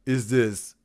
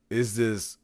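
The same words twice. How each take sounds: The two takes are said the same way.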